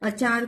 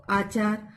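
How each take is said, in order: First: Said in the usual way. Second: आचार with a long opening "aa"; mispronounced long vowel. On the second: Shown as a demonstration. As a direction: stretch the first vowel of आचार into "aa". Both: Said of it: "सही उच्चारण नहीं होता".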